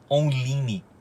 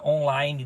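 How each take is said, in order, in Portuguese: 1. Online é falado letra por letra, como se escreve. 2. Online é falado do jeito comum, parecido com o inglês.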